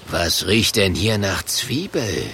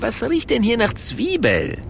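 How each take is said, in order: First: Low, suspicious sniffing growl; gruff monster voice. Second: Higher, puzzled sniffing question; Italian barman voice. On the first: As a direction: sniff it out like a brute. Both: Acted.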